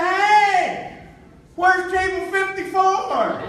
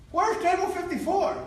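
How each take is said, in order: First: Loud, high, slow holler; triumphant call from the stage. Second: High-pitched, normal-volume question; retold lost guest's question; polite query. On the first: Retold or imitated. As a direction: shout it across a packed theater. Calling out to four thousand people. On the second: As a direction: ask a stranger for directions, pitched up. Asking a stranger for help.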